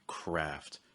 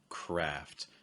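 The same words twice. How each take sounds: First: The pitch falls on the word. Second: The pitch falls on the word.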